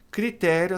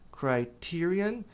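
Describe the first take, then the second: First: Said in the usual way. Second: "Criterion" said slowly as krai-TEER-ee-un; slow, careful English "Criterion" with a long i; English pronunciation. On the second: Shown as a demonstration. Teacher models "Criterion" slowly for Brazilian students. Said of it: "a pronúncia vai ser criterion".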